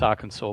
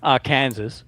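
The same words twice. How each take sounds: First: The ending is said like the word saw. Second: The ending is said like the word Kansas. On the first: This is the usual way of saying it. "I know it's Arkansas" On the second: This is the speaker's own way of saying it. "I like to say it this way"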